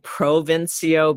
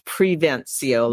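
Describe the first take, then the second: First: The name begins with the syllable 'pro'. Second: The name begins with the syllable 'pre'. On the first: The speaker calls it wrong. "people like to say Provincio" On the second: The speaker calls it right. "but it's Prevencio"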